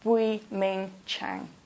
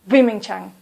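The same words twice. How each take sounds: First: The name is said slowly and clearly. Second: The name is said quickly. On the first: The speaker calls it right. "I want you to say the name clearly" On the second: The speaker calls it wrong. "please don't speak quickly"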